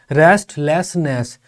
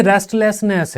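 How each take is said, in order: First: रेस्टलेसनेस in three slow beats, रेस्ट-लेस-नेस; syllable by syllable. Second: Said in the usual way. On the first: Shown as a demonstration. Teacher counting syllables in रेस्टलेसनेस, syllable by syllable. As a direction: break रेस्टलेसनेस slowly into three pieces. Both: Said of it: "तो इसमें तीन शब्दांश हैं".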